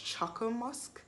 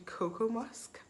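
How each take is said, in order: First: The first word begins with a 'ch' sound. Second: The first word begins with a 'k' sound. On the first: "I'm wondering if it's Choco Musk" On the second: "we're pronouncing it wrong"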